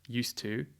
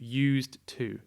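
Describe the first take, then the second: First: It is blended together like one word. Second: It is said as two separate words. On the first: "less like one word" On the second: "It's more like two"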